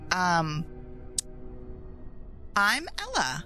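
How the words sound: It is said in a Valley Girl accent. The speaker calls it wrong.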